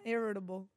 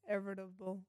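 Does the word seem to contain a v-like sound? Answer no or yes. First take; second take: no; yes. First: The word has no v-like sound. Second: The word seems to contain a v-like sound. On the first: The speaker calls it right. "This time I said it right" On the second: The speaker calls it wrong. "I heard a V in there"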